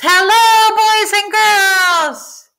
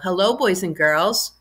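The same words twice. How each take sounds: First: It is called out loudly. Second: It is said in a normal speaking voice.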